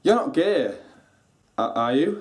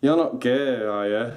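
First: It sounds hopeful and let down. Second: It sounds hostile and disapproving.

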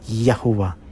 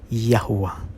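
The two takes are said the same way.

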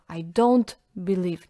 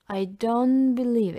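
First: The words are broken apart with an abrupt stop. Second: The words flow smoothly into each other. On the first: The speaker calls it wrong. "Главное, чтобы не было обрывов" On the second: The speaker calls it right. "Нет"

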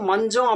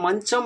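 First: The middle consonant is a voiced 'j' sound. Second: The middle consonant is a voiceless 'ch' sound. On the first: This is the everyday Tamil pronunciation. "மஞ்சம் அப்படின்னு நாம தான் சொல்கிறோம்" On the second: This is the Telugu pronunciation, kept from older usage. "அவங்க மஞ்சம் அப்படின்னு தான் சொல்கிறாங்க"

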